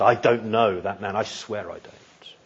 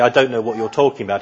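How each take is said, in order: First: Restrained, measured sworn denial, dropping softer; emphatic denial. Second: Said in the usual way. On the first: Acted. Peter swears he doesn't know Jesus, restrained but emphatic. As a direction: swear it, softly but firmly. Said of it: "more emphatic". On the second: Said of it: "he doesn't just say".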